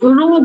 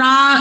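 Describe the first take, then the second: First: The vowel sounds like 'oh'. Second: The vowel sounds like 'ow'. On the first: It means a horizontal line. "অনুভূমিক ভাবে একটা রো বলে" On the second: It means a disagreement. "উচ্চারণটা আলাদা, রা এরকম"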